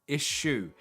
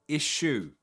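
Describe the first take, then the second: The two takes are said the same way.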